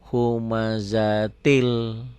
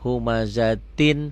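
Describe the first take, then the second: First: The word ends with an l sound. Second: The word ends with an n sound. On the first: The word joins the following lam. "tin karena ketemu lam jadi humazatil" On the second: The word is said on its own.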